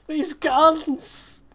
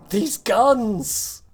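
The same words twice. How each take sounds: First: Exasperated exclaim. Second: Exasperated exclaim, stress on guns. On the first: Complains about guns. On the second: Complains again. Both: Real, not acted.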